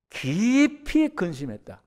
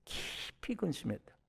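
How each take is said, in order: First: 깊이 근심했다 stretched slowly, high and loud with a falling end; drawn-out grief. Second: 깊이 근심했다 said much softer, falling away; soft repeat. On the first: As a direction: lean hard on 깊이 and draw 근심했다 out slowly. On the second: Preacher quietly echoing Abraham's sorrow, hushed. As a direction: drop 근심했다 to a hushed fall. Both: Shown as a demonstration. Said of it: "아브라함이 표현이에요".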